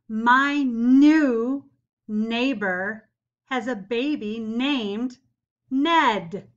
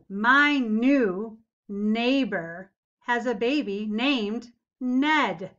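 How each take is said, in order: First: It is read at a slower pace. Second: It is read at a faster pace.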